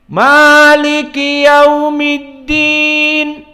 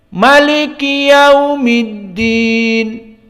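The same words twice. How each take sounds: First: The first vowel of Maliki is held long. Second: The first vowel of Maliki is kept short. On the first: This is the reading of Hafs from Asim. "qiraah Hafaz" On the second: This is the reading of the other six readers. "selain dari Hafaz"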